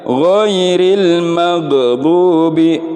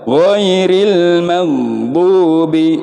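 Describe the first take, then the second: First: The gh sound bounces with a release. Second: The gh sound is held without bouncing. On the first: The speaker calls it wrong. "ada pantulan mag" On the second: The speaker calls it right. "Jangan memantul huruf ghainnya, harus sempurna"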